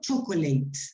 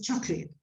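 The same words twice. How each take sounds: First: The middle vowel is pronounced fully. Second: The middle vowel is dropped completely. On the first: The speaker calls it wrong. "It's not chocolate" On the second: The speaker calls it right. "These sounds disappear, so it's chocolate"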